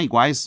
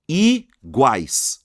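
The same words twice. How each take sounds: First: Said in the usual way. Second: "iguais" very slow, in two loud syllables. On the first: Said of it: "São duas sílabas". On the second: Shown as a demonstration. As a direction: hold I, pause, then GUAIS in "iguais". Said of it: "Duas sílabas".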